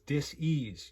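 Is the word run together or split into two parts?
split. The word is split into two separate parts. The body is not at ease. The speaker calls it right. "It's dis-ease"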